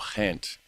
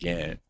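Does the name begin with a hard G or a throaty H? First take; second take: throaty H; hard G. First: The name begins with a throaty H sound. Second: The name begins with a hard G sound. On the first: The speaker calls it right. "the G's pronounced kind of like a throaty H" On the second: The speaker calls it wrong. "not Ghent"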